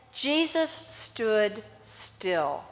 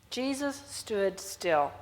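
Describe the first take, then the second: First: Very slow, hushed and still. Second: Slow, softer hushed repeat; slower and softer. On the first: Preacher slowing down for the still moment, hushed. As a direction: let each word hang in stillness. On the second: Preacher repeating the verse slowly, softer and hushed. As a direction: draw it out even quieter. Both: Shown as a demonstration. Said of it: "is interesting".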